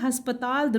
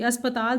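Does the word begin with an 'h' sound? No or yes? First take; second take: yes; no. First: The word begins with an 'h' sound. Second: The word begins with a plain vowel. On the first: The speaker calls it wrong. "हस्पताल दुरुस्त नहीं है" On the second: The speaker calls it right. "अस्पताल दुरुस्त लफ्ज़ है"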